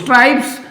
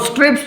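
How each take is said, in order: First: The vowel sounds like 'eye'. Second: The vowel is a short 'i'. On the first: "US accent में बोलते हैं" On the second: "UK accent में बोला जाता है"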